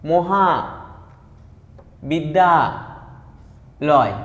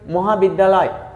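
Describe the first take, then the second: First: The word is broken into three separate syllables. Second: The word is said smoothly without any breaks. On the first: "অক্ষর কটা উচ্চারণ করি?" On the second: "একসঙ্গে উচ্চারণ করি"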